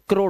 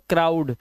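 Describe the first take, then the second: First: The vowel sounds like 'oh' in crow. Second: The vowel sounds like 'ow' in cow. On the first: The speaker calls it wrong. "क्रो में D लगा दो तो क्रोड हो जाएगा" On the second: The speaker calls it right. "इसलिए पढ़ते हैं क्राउड"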